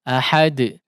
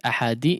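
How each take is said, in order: First: The final d bounces with no added vowel. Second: The final d is followed by an i vowel. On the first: The speaker calls it right. "betul-betul sukun ahad" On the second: The speaker calls it wrong. "tidak seperti ahadi"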